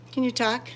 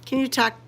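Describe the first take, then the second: No difference in how they are said.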